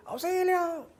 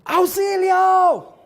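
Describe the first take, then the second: First: High, soft echo of the cry for help. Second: High, loud cry for help mid-fall; grito de auxilio. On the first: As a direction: let it come back thin, like a canyon echo. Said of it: "escucha un eco". (eco agudo y suave del grito) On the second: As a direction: yell it out as you tumble down the slope. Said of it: "empieza a gritar". (grito agudo y fuerte pidiendo auxilio) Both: Retold or imitated.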